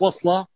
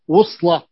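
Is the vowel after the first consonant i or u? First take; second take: i; u. First: The first vowel is i, as in wisla. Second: The first vowel is u, as in wusla. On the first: The speaker calls it wrong. "ليست وصلة" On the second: The speaker calls it right. "بضم الواو"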